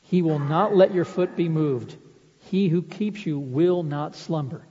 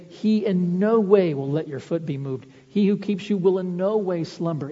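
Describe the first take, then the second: First: Said in the usual way. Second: "in no way" leaned on, the "n" of "no" held long; stress on in no way. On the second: Shown as a demonstration. Preacher rewords the verse to emphasize God's will, stressing "in no way". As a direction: bold the words "in no way" as if printed in bold. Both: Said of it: "those words of will are emphasized".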